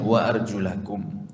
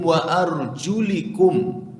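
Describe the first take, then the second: First: The vowel after the L is an 'a'. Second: The vowel after the L is an 'i'. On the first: The feet are to be washed. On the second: The feet are to be wiped.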